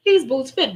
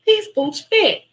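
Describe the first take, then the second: First: Said in the usual way. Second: High, loud squeal of joy; thrilled. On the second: Retold or imitated. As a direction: burst out delighted the boots fit. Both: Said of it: "I'm like".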